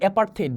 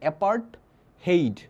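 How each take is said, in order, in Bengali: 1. মাঝের অংশটা একটা 'th' ধ্বনি করে বলা হয়। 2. মাঝের অংশটা আলাদা 't' আর 'h' করে বলা হয়।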